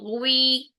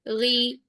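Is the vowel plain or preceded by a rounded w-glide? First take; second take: rounded; plain. First: A rounded w-glide comes before the i vowel. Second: A plain i vowel with no rounded glide. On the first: The speaker calls it wrong. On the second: The speaker calls it right.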